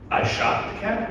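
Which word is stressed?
shot. The stress is on the word shot.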